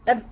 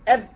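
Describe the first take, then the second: The two takes are said the same way.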